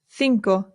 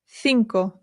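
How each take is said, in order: No difference in how they are said.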